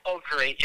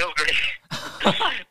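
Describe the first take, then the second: First: Said in the usual way. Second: Louder, higher, dry "Oh, great."; sarcastic. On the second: Retold or imitated. Answering the escorts' warning, sarcastic and louder. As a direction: throw it back with irony. Sarcastic reply to "don't end up like us.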